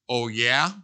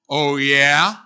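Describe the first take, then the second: First: It is said in a plain, neutral tone. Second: It is said in a defiant, challenging tone.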